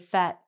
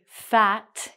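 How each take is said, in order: First: The final T is cut off and not released. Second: The final T is clearly pronounced. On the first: The speaker calls it right. "we say fat" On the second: The speaker calls it wrong. "we don't say fat"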